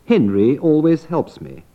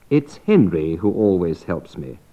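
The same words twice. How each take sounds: First: Said in the usual way. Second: "Henry" carries the main fall; single out "Henry" as the helper; stress on Henry. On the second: Shown as a demonstration. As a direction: cleft with the focus on "Henry". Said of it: "I'm expressing".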